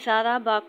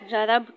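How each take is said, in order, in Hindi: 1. शब्द स्वर पर खत्म होता है। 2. शब्द व्यंजन पर खत्म होता है।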